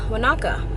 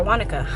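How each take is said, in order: First: "Wanaka" said wuh-NAH-kuh; second-syllable stress. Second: "Wanaka" said WAH-nuh-kuh; first-syllable stress. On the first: Traveler naming the town she's driving to, "Wanaka" as wuh-NAH-kuh. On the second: Traveler offering another pronunciation, "Wanaka" as WAH-nuh-kuh. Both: Real, not acted. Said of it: "whichever way you pronounce it".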